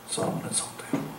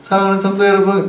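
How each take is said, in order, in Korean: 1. 아주 낮고 굵은 목소리로 말합니다. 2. 보통의 조금 높은 목소리로 말합니다. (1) "이게 이게 반응하지" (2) "별로 안 와닿잖아요"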